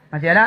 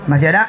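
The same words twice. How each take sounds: The two takes are said the same way.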